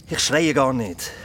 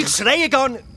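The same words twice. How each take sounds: First: Said in the usual way. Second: Higher and louder, yelling that he isn't yelling; shouting denial. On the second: Acted. Friend says he's yelling, Phil shouts his denial. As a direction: bark the denial right back at her. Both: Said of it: "weil du so grundlos übertrieben rumschreist".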